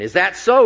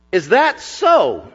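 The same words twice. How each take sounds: First: Retorting Pharaoh. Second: Slow, higher scornful retort; retorting Pharaoh. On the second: Pharaoh sneering back at Moses and Aaron, slow scornful retort. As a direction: sneer it back like a proud king. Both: Acted. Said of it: "retorted Pharaoh".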